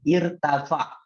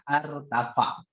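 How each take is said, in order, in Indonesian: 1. Kata ini diawali dengan vokal 'i'. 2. Kata ini diawali dengan vokal 'a'. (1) "Bacanya apa? Irtafa" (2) "Tidak boleh bacanya artafa"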